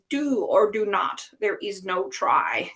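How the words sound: It is said in a put-on character voice.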